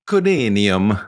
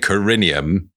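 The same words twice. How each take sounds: First: It is said with an Italian accent. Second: It is said with an English accent.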